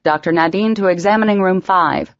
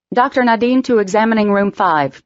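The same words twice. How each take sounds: First: Loudspeaker page. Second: Hospital intercom announcement; loudspeaker page. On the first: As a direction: repeat the PA page. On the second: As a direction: page it over the PA. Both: A narrator's reading. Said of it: "came a voice over the loudspeaker".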